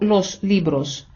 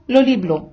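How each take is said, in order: First: The final s sounds are clearly pronounced. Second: The final s sounds are left out. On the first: The speaker calls it right. "він читав не «el libro los libros»" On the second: The speaker calls it wrong. "а «el libro lo libro»"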